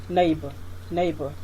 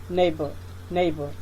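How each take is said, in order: The two takes are said the same way.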